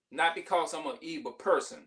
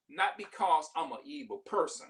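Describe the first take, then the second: First: "not" hit first and firm; stress on NOT. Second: Said in the usual way. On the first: Shown as a demonstration. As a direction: lean on "not" in "not because".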